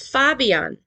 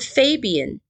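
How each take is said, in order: First: The name is said with German pronunciation. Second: The name is said with American English pronunciation. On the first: "But in German, it's Fabian" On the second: "like in American English"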